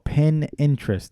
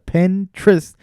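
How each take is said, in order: First: It is said as two words, pin and interest. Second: It is said as one blended word, Pinterest. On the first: The speaker calls it wrong. "I used to call it pin interest" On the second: The speaker calls it right. "I couldn't pronounce the Pinterest"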